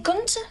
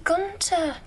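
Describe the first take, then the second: First: "Gunter" high, lifting at the end; name given. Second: "Gunter" high, falling at the end; name echoed. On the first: Retold or imitated. Wardrobe man naming the director, rising tune. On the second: Acted. Actress repeating the director's name, falling tune. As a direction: echo "Gunter" with a drop at the end.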